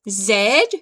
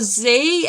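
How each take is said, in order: First: The letter is said the British way, as zed. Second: The letter is said the American way, as zee.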